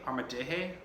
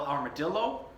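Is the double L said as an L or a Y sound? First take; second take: Y; L. First: The double L is said as a Y sound. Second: The double L is said as an English L.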